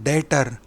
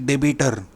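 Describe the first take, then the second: First: The b is silent, giving two syllables. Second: The b is sounded, giving three syllables. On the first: The speaker calls it right. "बी ये अक्षर silent है तो इसे कहते हैं डेटर" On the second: The speaker calls it wrong. "ना कि डेबिटर"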